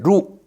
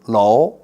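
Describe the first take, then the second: First: It is read with the Korean sound. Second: It is read with the Mandarin sound. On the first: "황학루 할 때 루" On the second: "중국 발음으로는"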